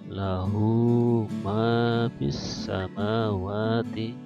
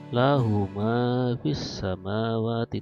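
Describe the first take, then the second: First: The vowel in hu is held long. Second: The vowel in hu is cut short. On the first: The speaker calls it right. "Jadi membacanya" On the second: The speaker calls it wrong. "tidak membacanya tidak"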